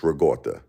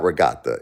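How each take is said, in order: First: Regatta with an AW in the middle, "ruh-GAWT-uh"; Brooklyn ricotta. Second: Regatta with an open AH, "ruh-GAHT-uh"; non-Brooklyn ricotta. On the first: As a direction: say regatta as "ruh-GAW-tuh", Brooklyn style. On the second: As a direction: say regatta as "ruh-GAH-tuh". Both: Shown as a demonstration. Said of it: "It's not regatta".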